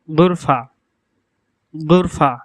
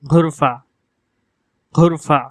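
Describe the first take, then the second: First: গুরফা with plain unaspirated g; standard Arabic. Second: ঘুরফা with breathy aspirated ঘ; dialect Arabic. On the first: Teacher showing classical গুরফা. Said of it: "বিশুদ্ধ ভাষায়". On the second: Teacher showing Gulf dialect ঘুরফা. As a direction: say ঘুরফা like Bangla ঘর's ঘ. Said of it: "আঞ্চলিক আরবি ভাষায় এর উচ্চারণ হবে". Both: Shown as a demonstration.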